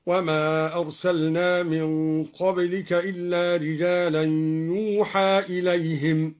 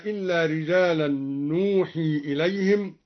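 First: "يوحى" as yuuhaa, opening on y; measured recitation, "يوحى" said yuu-haa; ya for nun. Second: Said in the usual way. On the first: Shown as a demonstration. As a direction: chant "يوحى" with a y and a final long aa. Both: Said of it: "قرأ الدوري بياء مكان النون".

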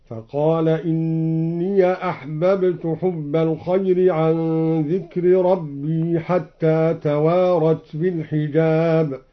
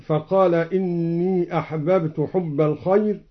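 First: "إني" said as inniya, with final a; slow recitation, "إني" opened into "inniya". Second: Said in the usual way. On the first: Shown as a demonstration. Reciter showing Al-Duri's reading, "إني" as inniya. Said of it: "قرأ بفتح الياء".

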